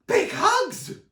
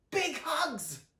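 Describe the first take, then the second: First: Very high, loud excited yell; Sonny shouts with glee to everyone, very high loud yell. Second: Higher, cheerful chorus call; the family answers together, cheerful higher cry; group cry. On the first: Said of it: "Sonny shouted excitedly". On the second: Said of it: "cried everyone except Luna". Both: A narrator's reading.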